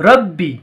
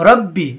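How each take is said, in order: The two takes are said the same way.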